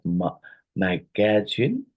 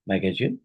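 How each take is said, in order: First: "magazine" drawn out in separate syllables. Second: Said in the usual way. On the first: Shown as a demonstration. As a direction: break "magazine" slowly into its syllables. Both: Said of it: "how many syllables are in the word magazine".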